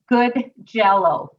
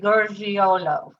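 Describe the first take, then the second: First: The name sounds like the English words 'good jello'. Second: The name is said with an Italian pronunciation. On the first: "My mom says good jello, like you eat" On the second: "my father-in-law would say Gurgiolo, who's the Italian"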